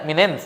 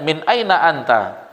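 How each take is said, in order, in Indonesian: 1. Ini diucapkan sebagai singkatan percakapan yang pendek. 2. Ini diucapkan dalam bahasa Arab fusha penuh. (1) "Ini dialek-dialek awal amiyah" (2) "kalau kita belajar"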